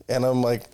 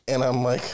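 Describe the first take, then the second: The two takes are said the same way.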